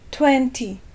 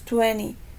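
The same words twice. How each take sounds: First: It is said with a British accent. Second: It is said with an American accent. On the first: "En Inglaterra y en países como Canadá, aquí a lo mejor sí, sí escuchamos varias personas que dicen twenty" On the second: "en Estados Unidos, eh, la pronunciación generalmente es twenty"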